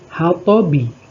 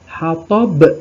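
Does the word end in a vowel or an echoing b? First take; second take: vowel; echoing b. First: It ends with a short i vowel after b. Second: It ends on a strongly echoing b sound. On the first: "huruf ba ada apa harokat kasroh" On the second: "dibaca hammalatal hatob ... pantulannya besar"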